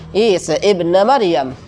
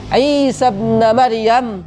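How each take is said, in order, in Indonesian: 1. Vokal sebelum ibn dilafalkan sebagai hamzah (glottal stop). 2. Vokal sebelum ibn tidak dilafalkan dan tersambung. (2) "kalau dia di tengah"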